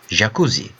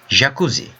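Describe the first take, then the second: The two takes are said the same way.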